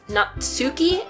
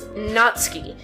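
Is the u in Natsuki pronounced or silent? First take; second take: pronounced; silent. First: The u after ts is clearly pronounced. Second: The u after ts is silent. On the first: The speaker calls it wrong. "YouTubers pronouncing Natsuki as Natsuki" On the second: The speaker calls it right. "the pronunciation is Natsuki, because the U is silent"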